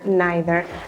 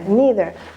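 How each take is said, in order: First: The word is said the British way. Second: The word is said the American way. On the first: "In the U K, I think they say" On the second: "in the U S A, most people say"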